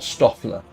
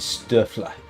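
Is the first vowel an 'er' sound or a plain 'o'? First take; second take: plain o; er sound. First: The first vowel is a plain 'o' sound. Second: The first vowel is an 'er' sound. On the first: The speaker calls it wrong. "It's not Stoffler" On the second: The speaker calls it right. "That O umlaut is more like an er sound"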